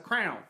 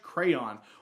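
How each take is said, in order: First: It is said the Texas way, like crown. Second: It is said in a general, non-Texas way.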